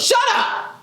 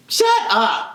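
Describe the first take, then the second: First: Sudden high shout of shut up; mock snap. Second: Said in the usual way. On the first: Speaker snapping at the teacher to shut up, high shout. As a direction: bark it at her, pitched way up.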